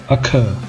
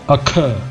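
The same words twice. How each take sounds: No difference in how they are said.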